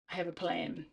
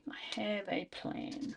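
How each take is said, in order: First: Said in the usual way. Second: Slow conspiratorial whisper. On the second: Shown as a demonstration. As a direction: breathe it like a secret plan. Repeats plan in whisper.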